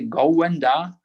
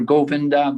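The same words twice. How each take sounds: First: The name is said with a Chinese accent. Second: The name is said with standard pronunciation. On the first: "And in China, we say Govinda" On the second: "For Govinda"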